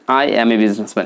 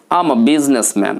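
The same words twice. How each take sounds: First: Said in the usual way. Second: "I'm a" said as am-a; smart accent. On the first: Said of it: "সাধারণভাবে অধিকাংশ ব্যক্তি". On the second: Shown as a demonstration. Teacher models a merchant's answer, smart contracted accent. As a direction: blend "I'm a" into one word before "businessman". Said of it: "smart অ্যাকসেন্টে কথা বলতে হবে".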